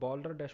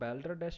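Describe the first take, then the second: First: The first vowel sounds like the vowel in 'saw'. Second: The first vowel sounds like the vowel in 'cat'. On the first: The speaker calls it right. "इसको बॉल्डर डैश पढ़ेंगे" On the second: The speaker calls it wrong. "इसको बैल्डर डैश भी नहीं पढ़ेंगे"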